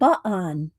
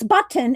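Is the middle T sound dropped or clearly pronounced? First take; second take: dropped; pronounced. First: The middle T sound is dropped. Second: The middle T sound is clearly pronounced. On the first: The speaker calls it wrong. "It's not button" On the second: The speaker calls it right. "It's button and kitten"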